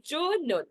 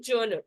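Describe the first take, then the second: First: "genre" split into two drawn-out syllables; "genre" said carefully, JON-ruh, for learners to copy; model pronunciation. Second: Said in the usual way. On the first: Shown as a demonstration. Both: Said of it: "like this we have to pronounce it".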